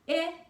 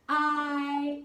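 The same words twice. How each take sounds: First: The vowel is said with its short sound. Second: The vowel is said with its long sound. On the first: "Those are the short sounds for the vowels" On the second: "The vowels also have a long sound"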